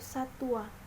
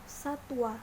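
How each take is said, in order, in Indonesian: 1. Suku kata kedua memiliki vokal u. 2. Suku kata kedua diawali dengan konsonan w. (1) "dari fonem konsonan w menjadi fonem vokal u" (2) "pelafalan yang baku adalah satwa dengan fonem konsonan w"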